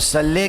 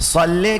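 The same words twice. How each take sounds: First: The first consonant is a light, plain s. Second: The first consonant is a heavy, emphatic s. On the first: It asks God to send down punishment. The speaker calls it wrong. "सिर्फ साद की जगह सीन" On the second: It asks God to send down mercy. The speaker calls it right. "सल्ले के मानी है परवरदिगार रहमत नाजिल कर"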